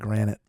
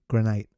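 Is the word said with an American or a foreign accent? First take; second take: American; Foreign. First: The word is said with an American accent. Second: The word is said with a foreign accent. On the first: This is the usual American way of saying it. "instead of" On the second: Someone from abroad says it this way. "She had an accent. I actually thought it was like nicer"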